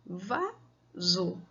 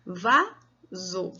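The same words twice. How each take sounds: First: Vaso repeated quieter, still in two beats; softer syllable demo. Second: Vaso split slowly into va and so; syllable demo. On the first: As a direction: count the syllables of vaso softly. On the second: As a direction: say vaso in two clear beats, one syllable per finger. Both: Shown as a demonstration. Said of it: "Por exemplo, a palavra vaso".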